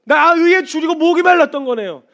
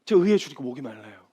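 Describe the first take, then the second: First: 나 의에 줄이고 목이 말랐던 거네요 proclaimed high and loud; loud fervent confession. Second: Humble prayer. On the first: Retold or imitated. Believer confessing thirst to the Lord, full force. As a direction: preach the line at full force. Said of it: "표현해 주시는 이게". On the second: Shown as a demonstration. Believer praying honestly to God, humble earnest prayer. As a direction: pray it simply, not proclaiming. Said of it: "하나님".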